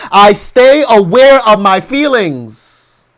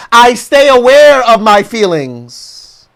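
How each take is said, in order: Both takes have the same delivery.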